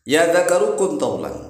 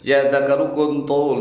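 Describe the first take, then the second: First: The last word ends with its full final syllable. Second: The last word stops short, dropping its ending. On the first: The speaker calls it right. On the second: The speaker calls it wrong.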